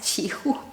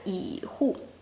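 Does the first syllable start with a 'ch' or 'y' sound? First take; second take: ch; y. First: The first syllable starts with a 'ch'-like sound. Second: The first syllable starts with a 'y' sound. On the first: The speaker calls it right. "doesn't pronounce 启户 as 启户" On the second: The speaker calls it wrong. "she pronounced it as 以户"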